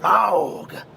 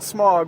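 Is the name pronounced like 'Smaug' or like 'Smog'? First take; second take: Smaug; Smog. First: The name is said with a different vowel than 'smog'. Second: The name sounds like the word 'smog'. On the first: This is apparently the official pronunciation. The speaker calls it right. "but apparently it's Smaug" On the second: This is how the speaker always said it. The speaker calls it wrong. "Always pronounce it Smog"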